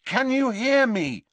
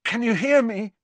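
First: High, loud, insistent question; urgent, raised voice; loud repeat. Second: High, tense, louder question; strained worry, pitched high. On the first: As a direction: call it out loudly to rouse him. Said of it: "he repeated loudly". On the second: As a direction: ask in a strained, raised voice. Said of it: "his voice strained". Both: A narrator's reading.

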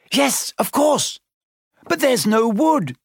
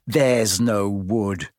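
First: High, panicky wail; distressed cry. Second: Low, slow, scornful echo; mocking quote. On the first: Hermione panicking over making fire, crying out. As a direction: cry out helplessly, pitched high. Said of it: "Hermione cried, wringing her hands". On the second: Ron quoting Hermione's panic back, mocking. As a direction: drag it out to mock a friend. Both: A narrator's reading.

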